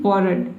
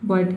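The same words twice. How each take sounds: First: The r sound is pronounced in the word. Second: The r sound is silent in the word. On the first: The speaker calls it wrong. "अब इस तरह से आपको नहीं पढ़ देना है" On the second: The speaker calls it right. "आर को प्रोनाउंस किया ही नहीं जा रहा है"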